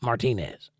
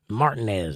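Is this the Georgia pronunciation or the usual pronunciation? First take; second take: usual; Georgia. First: The stress falls in the usual position. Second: The stress falls in the Georgia position. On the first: The speaker calls it right. "not Martinez" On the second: The speaker calls it wrong. "Martinez in Georgia is Martinez. Martinez"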